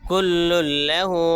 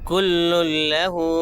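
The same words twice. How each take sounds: The two takes are said the same way.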